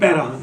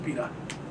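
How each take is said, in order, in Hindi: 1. पहला स्वर ध्वनि 'ai' है। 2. पहला स्वर ध्वनि 'ee' है। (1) "हमारे यहाँ उर्दू में पैराहन है" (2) "फारसी जो है वो पीराहन"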